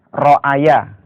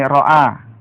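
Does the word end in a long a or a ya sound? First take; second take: ya sound; long a. First: It ends with an added ya sound. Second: It ends in a long a vowel. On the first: The speaker calls it wrong. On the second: The speaker calls it right. "kita baca panjang"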